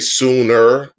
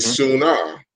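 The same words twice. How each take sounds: First: The word ends with a pronounced r sound. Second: The word ends with an open ah sound. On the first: "We don't say sooner" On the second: "We put ah on everything"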